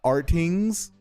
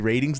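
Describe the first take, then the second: First: The word begins with an 'ar' sound. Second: The word begins with a 'ra' sound. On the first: The speaker calls it right. "I refuse to pronounce it ratings" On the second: The speaker calls it wrong. "I refuse to pronounce it ratings"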